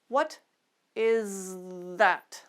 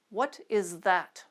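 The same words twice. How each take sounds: First: The phrase is said slowly. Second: The phrase is said at normal speed. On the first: "We'll go slowly at fast and then normal speed" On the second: "Let's try those sentences at normal speed"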